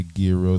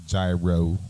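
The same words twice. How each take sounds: First: Gyro said as "GEE-ro", with a hard g; hard-g pronunciation. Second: Gyro said as "JAI-ro", rhyming with Cairo; JAI-ro pronunciation. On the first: Host listing how some people say gyro, as "GEE-ro". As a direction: start gyro with a hard g, "GHEE-roh". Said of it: "Some people say gyro". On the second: Host listing another way people say gyro, as "JAI-ro". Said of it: "some people say gyro". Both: Shown as a demonstration.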